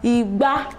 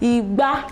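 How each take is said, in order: First: The pitch goes from mid to high. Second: The pitch goes from mid to high.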